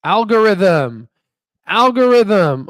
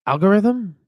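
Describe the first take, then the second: First: The word algorithm stretched out slowly, louder and higher; slow emphatic. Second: High, questioning try at the name; unsure guess. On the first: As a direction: spell out algorithm syllable by syllable, loud and clear. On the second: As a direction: sound out the word Algorithm as a puzzled guess. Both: Real, not acted. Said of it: "Oh my God, I'm such a".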